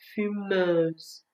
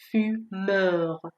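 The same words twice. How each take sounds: First: Fumeuse with closed eu and final z; careful fumeuse, set against the masculine form; contrasted French ending. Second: Fumeur with open eu and final French r; careful fumeur, set against the feminine form; contrasted French ending. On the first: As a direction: model fumeuse, ending on a buzzing z. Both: Shown as a demonstration.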